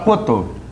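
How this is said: The S sound is dropped.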